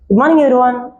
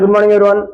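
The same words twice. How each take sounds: First: It is said cheerfully, with a smile. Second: It is said flatly, without a smile.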